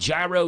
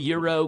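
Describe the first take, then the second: First: The word begins with a J sound, like 'jai-ro'. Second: The word begins with a Y sound, like 'euro'. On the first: "G Y R O" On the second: "or Euro if you want to pronounce it"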